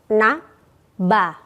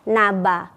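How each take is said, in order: First: The two syllables are separated by a short break. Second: The two syllables run together without a break. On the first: "Atau boleh diputus" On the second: "Sambung ya"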